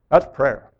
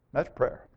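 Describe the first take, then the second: First: Said in the usual way. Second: Hushed echo. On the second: Real, not acted. Preacher repeating his point to the congregation as a hushed echo. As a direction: repeat it much softer, almost to yourself.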